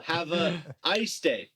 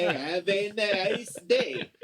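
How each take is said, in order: First: "Have a ice day" без "n", с "a"; поправить на "a ice"; "Have a ice day" corrected. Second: "Have an ice day" медленно, по слогам; medленно выговорить "an ice"; "Have an ice day" slow. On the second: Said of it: "I say". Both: Shown as a demonstration.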